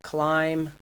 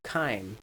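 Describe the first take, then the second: First: The word starts with a kl cluster. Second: The word starts with only a k. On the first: "Cluster reduction" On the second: "Cluster reduction"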